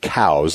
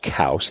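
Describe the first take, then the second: First: It rhymes with cow and ends in a Z sound. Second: It rhymes with house and ends in an S sound. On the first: The speaker calls it wrong. "saying cows like a cow, kind of that hard Z on the end" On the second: The speaker calls it right. "it's pronounced Kouse"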